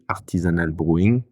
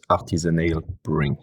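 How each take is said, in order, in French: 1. Le nom est prononcé avec un accent français. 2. Le nom est prononcé avec un accent anglais. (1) "quand je parle à des gens qui sont pas trop anglophones" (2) "le nom tel qu'on l'avait imaginé"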